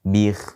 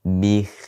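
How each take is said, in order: The two takes are said the same way.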